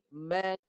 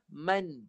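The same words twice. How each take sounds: First: The vowel is held, then the n follows. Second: The word is said as one quick sound. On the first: This is how the word is read in the Quran. The speaker calls it right. "Yang betul, dua bunyi" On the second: This is how the word sounds in Malay. The speaker calls it wrong. "yang salah, man. Satu bunyi"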